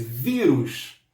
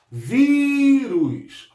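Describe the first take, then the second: First: Said in the usual way. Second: Vírus much higher and louder, VÍ drawn out; stress on VÍ. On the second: Shown as a demonstration. Teacher calls attention to the word for students, emphatic. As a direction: sing out the VÍ of Vírus. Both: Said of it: "Prestem atenção nessa palavra".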